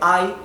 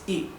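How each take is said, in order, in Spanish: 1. La vocal se pronuncia larga, como 'eye'. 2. La vocal se pronuncia corta, como en 'in'. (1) "En vez de I" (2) "adquiere su, su pronunciación corta"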